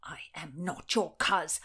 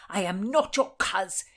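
First: Firm, measured "not your coz" at usual pitch; restrained angry denial. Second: Forceful, loud "not your coz"; louder angry denial. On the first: Nephew rejecting his supposed uncle, restrained anger. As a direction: deny the kinship with contained anger. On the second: Nephew insisting he is no kin, louder anger. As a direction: hammer the denial home. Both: Acted.

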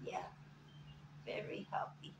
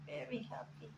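First: Breathy whisper to the pet; hushed whisper. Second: Quiet voiced coo to the pet; gentle murmur; soft coo. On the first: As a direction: whisper it close and tender. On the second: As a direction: say it softly, voiced, tender. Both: Real, not acted. Cooing over massaged bird.

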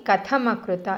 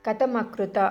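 First: కథమకృత with a breathy థ; aspirated tha. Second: కథమకృత with an unaspirated త, the wrong way; wrong plain ta. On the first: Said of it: "ఇలాగే పలకాలి". (కథమకృత ఒత్తు థా తో) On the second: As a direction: drop the breath in కథమకృత. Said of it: "అని పలకకూడదు". (కథమకృత ఒత్తు లేకుండా తప్పుగా) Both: Shown as a demonstration.

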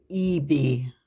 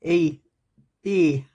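First: "eBay" dengan "ee-bay" panjang dan lambat; "eBay" pelan, aksen Geordie. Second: "eBay" as /epe/, falling; "eBay" said in a Geordie accent, falling; eBay again. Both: Shown as a demonstration. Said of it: "Everybody thinks when I say eBay".

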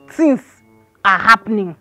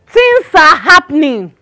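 First: "Things are happening" at normal volume, pitch dropping; ominous repeat. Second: THINGS ARE HAPPENING, loud, slow and heavily weighted; dramatic announcement. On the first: Gossip repeating her warning to the landlord, ominous and lower. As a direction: let "are happening" sink low after a pause. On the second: Gossip warning the landlord about his compound, dramatic announcement. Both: Acted.

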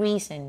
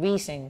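The two takes are said the same way.

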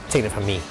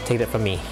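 The two takes are said the same way.

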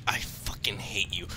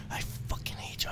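First: Said in the usual way. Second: Hushed unvoiced whisper. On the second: Real, not acted. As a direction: breathe it out in a whisper. Repeated curse, whispered.

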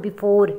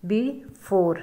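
First: Said in the usual way. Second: "before" broken in two, a clear pause after be; split into syllables. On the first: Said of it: "अब हम इसको divide करते हैं". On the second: Shown as a demonstration. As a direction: say "before" slowly as two separate syllables, be, fore. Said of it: "divide करते हैं syllables में". ("before" को दो सिलेबल्स में तोड़कर, बीच में रुककर)

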